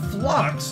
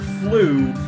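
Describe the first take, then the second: First: The word ends with a 'ks' sound. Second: The word ends without a 'ks' sound.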